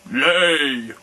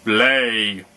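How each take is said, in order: First: Louder, higher thundering command. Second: Louder one-word giant command; giant's shout. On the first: Giant orders egg after egg in a thundering voice. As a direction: thunder the word at the hen. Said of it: "in a voice of thunder". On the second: Giant orders the hen, louder gruff shout. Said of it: "shouted the giant". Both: A narrator's reading.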